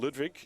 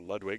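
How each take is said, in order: First: The name is said in a non-American way. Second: The name is said in an American way.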